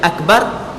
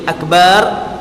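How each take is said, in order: First: The vowel in the last syllable is short. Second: The vowel in the last syllable is drawn out long.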